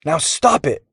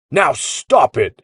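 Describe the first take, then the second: First: High-pitched cross order; a storybook foot-stomping demand; bossy demand. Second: Slow, booming roar. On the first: Boy to goggled kid, stomping, bossy. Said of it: "Jax stomped a boot". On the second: Gear echoes the boy's demand, roaring. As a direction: drag it out in a big voice. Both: A narrator's reading.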